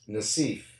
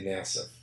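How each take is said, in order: First: The name is said in its Lebanese style. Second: The name is said in a simplified local style. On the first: "in Europe, and in Lebanon, that's exactly how you say it" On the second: "I could probably go a little simpler"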